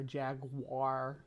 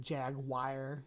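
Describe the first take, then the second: First: "jaguar" said as JAG-war, two syllables; slow "jaguar" with a hard -war ending; "jaguar" the American way, two beats. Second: "jaguar" said as JAG-wire, three beats, soft r; slow UK "jaguar", jag-you-ah ending; "jaguar" the British way, slowly; UK-style jaguar. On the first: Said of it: "J A G W A U R". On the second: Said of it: "it's like jaguar". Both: Shown as a demonstration.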